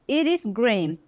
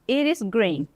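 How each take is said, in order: The two takes are said the same way.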